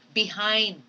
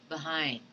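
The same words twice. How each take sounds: First: The first vowel is a full, clear vowel. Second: The first vowel is a weak 'uh' sound. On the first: The speaker calls it wrong. "You do not say behind" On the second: The speaker calls it right. "the unaccented schwa should come in in the word behind"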